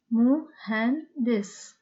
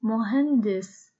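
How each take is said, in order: First: "مهندس" slowly broken into three separate beats; "مهندس" drawn out, a gap after each syllable; split into syllables. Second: Said in the usual way. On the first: Shown as a demonstration. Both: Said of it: "Three syllables".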